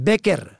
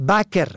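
First: بکر as "beker"; short "e" after the b in بکر; kasra on first letter. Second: بکر as "baker"; fatha on first letter. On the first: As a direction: say بکر as BE-ker. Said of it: "به کسر اول". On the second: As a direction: open "a" after the b in بکر. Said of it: "به فتح اول". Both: Shown as a demonstration.

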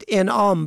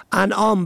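First: انعام as "en'ām"; short "e" opening انعام; kasra on first letter. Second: انعام as "an'ām"; fatha on first letter. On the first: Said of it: "به کسر اول". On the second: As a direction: open "a" opening انعام. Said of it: "به فتح اول". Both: Shown as a demonstration.

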